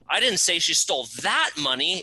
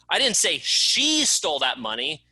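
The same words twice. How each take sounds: First: The word "that" is stressed. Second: The word "she" is stressed. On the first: Different money was stolen. "It wasn't that money, it was a different bucket of money she stole" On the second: Someone else stole it. "It wasn't her, it was someone else that stole it"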